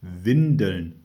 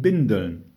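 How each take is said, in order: First: "Windeln" with a clear initial W, sighed; sighed correction. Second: "Bindeln" with a B in place of W; misheard word. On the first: Mother corrects the child, sighing "Windeln" with a W. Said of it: "seufzte Mutter". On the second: Child insists on what was read, misheard "Bindeln" with B. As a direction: say "Bindeln", starting on a hard B. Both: A narrator's reading.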